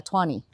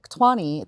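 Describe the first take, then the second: First: Tshwane said quickly in the speaker's own local way, hard for the guest to catch; just say Tshwane the way you say it at home, without slowing down; own local pronunciation. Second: Tshwane repeated on its own with a falling end; repeated for clarity. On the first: Mentioning a cleanup to the guest, in his own local pronunciation. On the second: Answering the guest's question, with a clarifying repeat. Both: Real, not acted. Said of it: "You, you said it in a way I didn't even understand".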